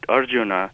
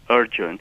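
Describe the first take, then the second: First: The name ends with an added final vowel. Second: The name ends on the consonant n. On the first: The speaker calls it wrong. "I heard Professor Narayan call it Arjuna" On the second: The speaker calls it right. "If you go back to the original Sanskrit pronunciation of the word, it is Arjun"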